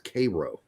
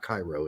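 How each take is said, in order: First: It is pronounced the local Indiana way. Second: It is pronounced the way the Egyptian capital is. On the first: This is the local name of the town. "we pronounce it in Indiana as Cairo" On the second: This is how the Egyptian capital is named. "not Cairo"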